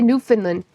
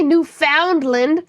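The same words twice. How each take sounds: First: Newfoundland with "found" reduced to "fin"; Newfoundland as NEW-fin-lund. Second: NEWFOUNDLAND with a full "found" in the middle; Newfoundland as new-FOUND-land. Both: Shown as a demonstration. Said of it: "How you want me to say it?".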